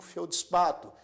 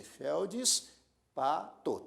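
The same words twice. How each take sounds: First: Said in the usual way. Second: "feldspato" slowly split as felds, pa, to; syllable by syllable. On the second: Shown as a demonstration. Teacher showing how to divide the word, "feldspato" in slow separate syllables. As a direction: say "feldspato" with a pause after each syllable. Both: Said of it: "você também dividiria assim".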